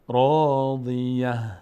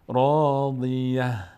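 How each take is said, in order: No difference in how they are said.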